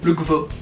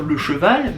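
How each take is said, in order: First: The e sound is dropped and the word shortened. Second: The e sounds are pronounced fully. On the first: "mais le gvo" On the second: "on va par exemple pas dire le cheval"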